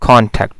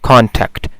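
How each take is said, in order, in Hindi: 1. Stress पहले syllable पर है। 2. स्ट्रेस पहले सिलेबल पर है।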